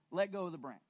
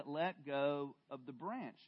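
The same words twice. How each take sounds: First: Said in the usual way. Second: "let go of the branch" slower and quieter, each word placed; firm, slow repeat. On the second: Acted. The Lord repeats his order to Jack, slow and firm. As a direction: repeat it patiently and firmly. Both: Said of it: "I said".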